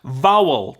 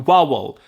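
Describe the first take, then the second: First: It begins with a clear v sound. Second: It begins with a w-like sound.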